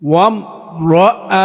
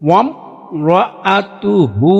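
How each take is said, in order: First: The word ends on a bare 'h' sound. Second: The word ends with a full 'hu' syllable. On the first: The reading stops at this word. "ওয়াকফ করলে হা সাকিন হয়ে যাবে" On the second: The reading continues without stopping here. "যদি আমরা এখানে ওয়াকফ না করি"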